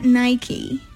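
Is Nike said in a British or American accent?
American. It is said the American way.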